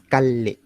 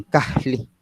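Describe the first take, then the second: First: "Calle" as cal-li, with a held double L; long voiced L. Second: "Cajli" with a breath of h before the L; aspirated L. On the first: Teacher gives own region's way, "Calle" with long L. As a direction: hold the L in "Calle", voiced, no breath. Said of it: "Nosotros lo diríamos Calle". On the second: Teacher imitates another region's speakers, "Cajli" with aspirated L. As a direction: puff air between "Ca" and "li" in "Cajli". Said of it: "que aspiran una L". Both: Shown as a demonstration.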